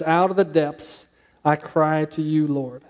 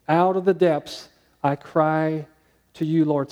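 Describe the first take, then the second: First: Slow scripture reading. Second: Even slower, heavier reread of the verse; slower scripture repeat. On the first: Preacher reading the psalm aloud to the congregation, slow and earnest. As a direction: read the psalm line slowly and earnestly. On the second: Preacher rereading the verse to the congregation, slower still. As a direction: linger on each word of the psalm. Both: Shown as a demonstration. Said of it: "He says".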